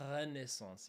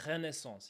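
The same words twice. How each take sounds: First: Renaissance with a long rattled R at the start; exaggerated rolled R. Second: Renaissance with a short throaty French R. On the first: French speaker showing what we wouldn't say, exaggerated rolled R. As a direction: drag out the R of Renaissance as if rolling it. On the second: French speaker showing the usual way, French R. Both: Shown as a demonstration. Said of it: "we wouldn't say".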